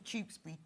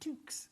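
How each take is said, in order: First: The name is said in full, three syllables. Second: The name is cut short to one syllable. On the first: The speaker calls it right. "It calls Tewkesbury" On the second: The speaker calls it wrong. "It calls Tewkesbury Tookes"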